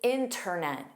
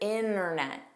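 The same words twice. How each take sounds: First: The T after the N is pronounced. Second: The T after the N is dropped. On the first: "the speaker pronounces the T" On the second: "a clip where there's no T"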